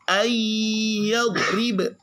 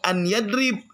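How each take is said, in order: First: The n merges into a doubled nasal y. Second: The n is said clearly before the y. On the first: The speaker calls it right. "tapi ayyadrib" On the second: The speaker calls it wrong. "Bukan an yadrib"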